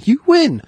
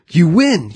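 First: Much higher, ecstatic shout. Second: Higher, delighted cry; excited. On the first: Candy maker repeating the win, ecstatic high shout. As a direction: cry it out, overjoyed. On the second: Candy maker telling the boy he won, delighted. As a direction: burst out with joy at the news. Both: Retold or imitated.

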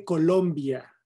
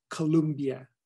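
First: Said in the usual way. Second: "Columbia" as English kuh-LUM-bee-uh; anglicized pronunciation. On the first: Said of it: "Se dice Colombia". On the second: Shown as a demonstration. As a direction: say "Columbia" with American vowels. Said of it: "no Columbia".

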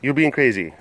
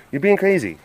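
First: Said in the usual way. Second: Higher-pitched play scolding; high mock protest. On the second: Telling the pet it's being crazy, high mock protest. Protest eases towards usual voice.

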